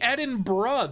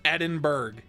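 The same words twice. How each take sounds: First: The ending sounds like 'bruh', r before vowel. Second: The ending sounds like 'burg', matching the spelling. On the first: "If the R was before the U, then Edinburgh would make sense" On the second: "It's spelled like Edinburgh. Why would I pronounce it any other way?"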